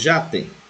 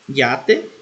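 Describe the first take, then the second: First: The word begins with a 'zh' sound. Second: The word begins with a 'y' glide sound. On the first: "Ou com som de J" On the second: "Pode ser pronunciada com é"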